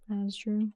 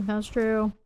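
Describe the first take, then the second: First: Softer, as an afterthought; quiet echo. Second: Said in the usual way. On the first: Real, not acted. Streamer agreeing with chat, quietly to self.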